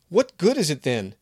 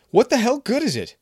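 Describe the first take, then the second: First: Raised, bitter question; angry demand. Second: Much higher and louder, yelled; furious shout. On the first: Kevin angrily challenging Maria's small magic. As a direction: throw the question at her. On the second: Kevin screaming at Maria, shaking the jar. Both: Acted.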